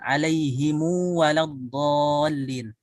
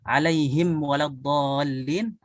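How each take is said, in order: First: The mim is followed by a lengthened vowel. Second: The mim is closed with no added vowel. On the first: "dengan dipanjangkan" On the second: "dengan disukunkan"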